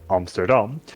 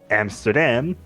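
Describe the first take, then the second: First: It is said with a Dutch pronunciation. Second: It is said with an English pronunciation. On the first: The speaker calls it right. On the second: The speaker calls it wrong.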